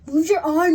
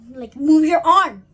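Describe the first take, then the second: First: It is said in a plain, unaccented voice. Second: It is said with a Spanish accent. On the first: The speaker calls it wrong. "not like that" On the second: The speaker calls it right. "Like in Spanish"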